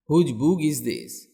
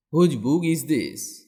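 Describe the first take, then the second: No difference in how they are said.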